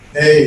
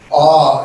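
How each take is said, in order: First: The vowel is held only briefly. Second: The vowel is held for longer. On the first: "A is short" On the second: "Ah is long"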